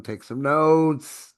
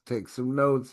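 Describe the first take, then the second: First: Drawn-out and louder, NOTES stretched; slow down and lean on "take some notes"; teacher hammering the point home; emphatic slow instruction. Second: Said in the usual way. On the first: Shown as a demonstration. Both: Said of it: "Write this down".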